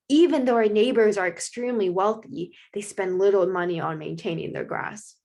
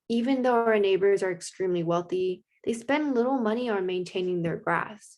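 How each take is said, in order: First: It is said in a dramatic tone. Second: It is said in a sad tone.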